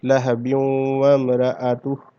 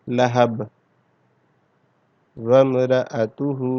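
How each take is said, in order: First: The words run on without a stop, with -in linking. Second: The voice stops after 'lahab', dropping the ending. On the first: "अगर हमने इसको यानी यहाँ वक्फ नहीं किया, रुके नहीं है" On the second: "हमने यहाँ पर वक्फ किया है"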